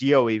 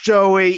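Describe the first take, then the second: First: The name begins with a Y sound. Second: The name begins with a J sound. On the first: The speaker calls it wrong. "she honestly thought that our friend's name was actually pronounced Yoey" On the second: The speaker calls it right. "no, no, it's Joey"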